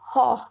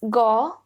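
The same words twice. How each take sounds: First: The name is said the Dutch way. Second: The name is said the American way. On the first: "as per the Dutch language, it is Gogh" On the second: "Americans pronounce it differently"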